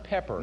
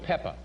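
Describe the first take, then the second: First: The word ends with an r sound. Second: The word ends with an ah sound. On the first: The speaker calls it wrong. "It's not pepper" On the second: The speaker calls it right. "Salt and Pepper"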